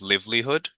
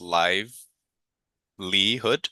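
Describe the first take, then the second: First: The middle E sound is left out. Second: The middle E sound is clearly pronounced. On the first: The speaker calls it wrong. "you were pronouncing that as livelihood" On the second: The speaker calls it right. "don't forget to pronounce the E. So it's livelihood"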